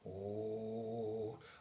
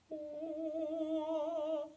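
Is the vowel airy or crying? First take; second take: airy; crying. First: The vowel is breathy and airy. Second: The vowel has a sobbing, crying quality. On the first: "avec des sons plus aérés" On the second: "des sons très très pleurés"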